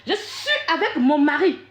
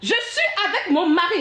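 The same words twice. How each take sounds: First: Slow, deliberate Je suis avec mon mari, stressing suis, half laughing; slow insistence. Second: Said in the usual way. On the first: Real, not acted. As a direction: spell it out slowly with a laugh. Repeats her point while showing the document. (lent et insistant sur « suis », en riant à moitié)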